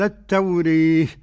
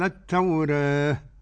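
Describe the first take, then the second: First: The long vowel leans fully toward an e sound. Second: The long vowel leans slightly toward an e sound. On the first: "الإمالة الكبرى" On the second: "الفتح والتقليل"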